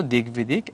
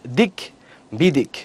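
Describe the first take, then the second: First: Said in the usual way. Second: দিক, short pause, বিদিক; stop twice. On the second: Shown as a demonstration. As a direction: halt after দিক and again after বিদিক. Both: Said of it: "থামসে আবার দুইবার".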